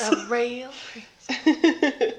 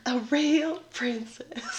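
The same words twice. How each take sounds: First: Slow, high, regal drawl; grand mock-regal voice. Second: Whisper. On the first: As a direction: say it slowly like royalty. Echoes with put-on voice. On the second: Pretend. Repeats key phrase.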